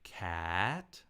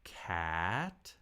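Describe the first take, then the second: No difference in how they are said.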